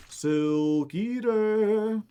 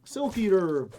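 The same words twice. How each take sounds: First: "Silk Eater" stretched very long, higher; drawn out. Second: Said in the usual way. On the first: Pretend. Player repeats the Silk Eater name, drawn out. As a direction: draw out both words of "Silk Eater" playfully.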